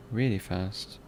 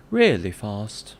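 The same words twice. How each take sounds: First: Said in the usual way. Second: Slow, loud put-on British accent. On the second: Shown as a demonstration. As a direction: stretch it out in a mock British accent. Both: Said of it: "Maybe I can use a different British accent".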